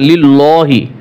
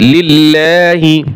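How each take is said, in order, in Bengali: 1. L এর উচ্চারণ ভারী ও মোটা। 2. L এর উচ্চারণ হালকা ও পাতলা। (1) "হবে না।" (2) "এইখানে কিন্তু লাম পাতলা হয়েছে"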